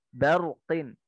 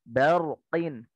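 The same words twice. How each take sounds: No difference in how they are said.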